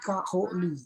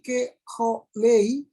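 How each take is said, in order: First: The first syllable has a full a vowel. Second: The first syllable has a reduced e vowel. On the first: The speaker calls it right. "sewa yang pertama dibentuk menjadi vokal" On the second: The speaker calls it wrong. "bukan lagi keholei"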